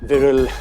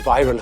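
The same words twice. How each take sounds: First: The name is said with an Indian pronunciation. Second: The name is said with an English pronunciation. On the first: This is the original form of the name. "originally uh, it was Viral Shah" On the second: This is the form that sounds better to the speaker. "English accent में Viral viral हो जाता है"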